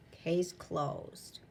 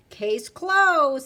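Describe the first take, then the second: First: Soft echo. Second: Firm ruling. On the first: Echo of the ruling. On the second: Magistrate declares verdict. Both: Acted.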